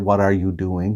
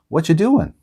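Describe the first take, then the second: First: Every word is said fully and separately. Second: The words blur together into 'whatcha doing'. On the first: The speaker calls it wrong. "We don't say" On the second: The speaker calls it right. "what are you becomes whatcha"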